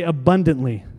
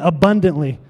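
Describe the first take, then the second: First: Said in the usual way. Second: Abundantly said louder, with conviction; really mean Abundantly, louder and firm; said like you mean it. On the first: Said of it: "Say that after me". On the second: Shown as a demonstration. Pastor urging the congregation to mean Abundantly, louder. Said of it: "Say it like you mean it".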